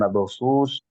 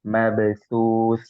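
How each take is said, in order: First: The consonant sounds like a plain s. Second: The consonant is a clearly lisped th. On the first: The speaker calls it wrong. "Bukan mabthus" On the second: The speaker calls it right. "sa-nya harus lebih pertegas ya, harus berbeda dengan so"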